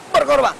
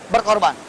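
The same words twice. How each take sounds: First: Preacher driving the word Berkorban home; emphatic repeat. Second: Said in the usual way. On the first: Acted. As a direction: hit Berkorban hard the second time.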